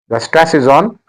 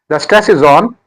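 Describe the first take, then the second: Both takes have the same delivery.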